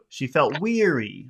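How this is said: The main stress falls on weary. The speaker calls it right. "all the attention should be on weary"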